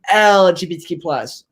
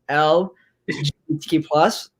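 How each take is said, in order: First: The L is run quickly into the next letters. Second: The L is pronounced clearly and distinctly. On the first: "either saying" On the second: "I pronunciate the L like"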